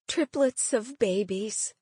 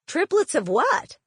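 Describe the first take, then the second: First: Said in the usual way. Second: Baffled question. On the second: Acted. Aunt baffled by the news.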